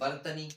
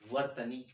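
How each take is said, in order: First: The word begins with a b sound. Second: The word begins with a v sound. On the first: "तो बा बनाओगे कि वा बना दोगे" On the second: "जब हम कोई चीज अच्छे से बोलेंगे"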